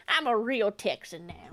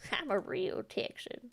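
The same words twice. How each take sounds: First: Said in the usual way. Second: Whisper. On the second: Pretend. Repeats Texan claim, whispered.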